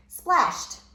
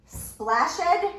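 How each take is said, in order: First: Splashed. ending in a crisp t, said high and louder; teacher giving the right reading; correct reading. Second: Splashed? said as splash-id, high and louder; teacher modelling a wrong reading; wrong try. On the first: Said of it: "The word is splashed". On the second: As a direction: sound out Splashed? with an extra id syllable. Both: Shown as a demonstration.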